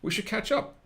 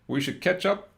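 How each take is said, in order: First: The phrase does not sound like ketchup. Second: The phrase sounds like the word ketchup. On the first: The speaker calls it right. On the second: The speaker calls it wrong.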